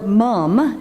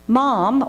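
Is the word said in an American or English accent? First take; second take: English; American. First: It is said with an English accent. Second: It is said with an American accent.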